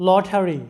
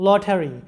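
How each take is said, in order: Both takes have the same delivery.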